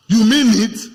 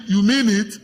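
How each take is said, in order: First: "You mean it?" thrown out loud as a stunned question; loud repeat. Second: Said in the usual way. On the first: Shown as a demonstration. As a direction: call it out again, much louder. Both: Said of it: "You say".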